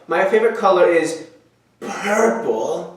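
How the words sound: It is said in a hazy, dreamy put-on voice. The speaker calls it right. "It's very hazy purple"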